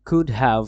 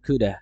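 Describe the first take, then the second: First: Both words are said fully and separately. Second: The words blend into one word, coulda.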